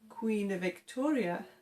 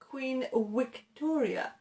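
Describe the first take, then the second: First: Victoria begins with a v sound. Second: Victoria begins with a w sound. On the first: The speaker calls it right. "instead of Queen Victoria" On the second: The speaker calls it wrong. "They pronounce it with a w sound"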